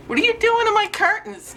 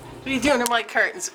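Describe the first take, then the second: First: Very high, exasperated pet voice; scolding a pet. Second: Quick scolding. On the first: Owner to cat on expensive curtains, high scolding. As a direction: demand it of the cat, high-pitched. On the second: Owner to cat at curtains, quick muted scolding. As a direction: rattle off the question quickly. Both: Real, not acted.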